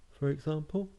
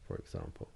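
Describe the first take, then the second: First: High, rising "for example"; rising intonation. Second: Very low, soft falling tone; tonal marking. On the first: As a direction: let "example" climb upward at the end. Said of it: "or up, for example". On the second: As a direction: drop right down low and quiet. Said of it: "with the tone of your voice". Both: Shown as a demonstration.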